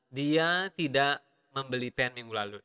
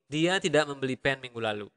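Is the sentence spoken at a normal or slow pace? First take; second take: slow; normal. First: The sentence is spoken slowly and deliberately. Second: The sentence is spoken at a normal conversational speed.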